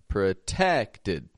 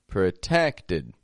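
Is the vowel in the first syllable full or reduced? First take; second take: reduced; reduced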